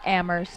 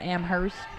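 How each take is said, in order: First: The H in the middle is silent. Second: The H in the middle is clearly pronounced. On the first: The speaker calls it right. "nice Amherst" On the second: The speaker calls it wrong. "not Amherst ... emphasized the H there"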